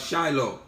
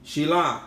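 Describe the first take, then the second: First: The name ends with an 'oh' vowel. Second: The name ends with an 'ah' vowel. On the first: The speaker calls it wrong. "falsely pronounced as" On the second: The speaker calls it right. "more accurately pronounced Shilah"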